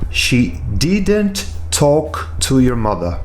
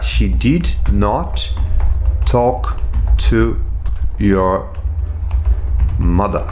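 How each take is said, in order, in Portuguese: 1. A negativa é contraída em uma palavra só. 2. A negativa é dita como duas palavras completas. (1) "Aqui eu coloquei até na forma abreviada" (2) "se eu estivesse escrevendo"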